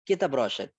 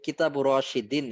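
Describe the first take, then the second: First: The second word ends without an extra syllable. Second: The second word ends with an added -in syllable. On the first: This is the short everyday way people speak. "ওরা সংক্ষেপে কিতাব রশেদ এভাবে করে বলবে" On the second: This is the full formal form. "কিতাব রশিদিন এভাবে বলবে না"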